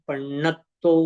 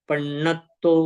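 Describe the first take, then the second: No difference in how they are said.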